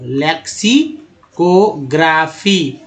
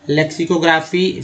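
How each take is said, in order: First: लेक्सिकोग्राफी slowly, broken before को, ग्रा and फी; slow pronunciation. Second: Said in the usual way. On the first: Shown as a demonstration. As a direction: draw out लेक्सिकोग्राफी part by part. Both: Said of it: "तो ग्राफी हो गया".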